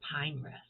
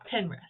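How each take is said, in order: First: The first syllable has a long 'eye' vowel. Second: The first syllable has a short 'ih' vowel.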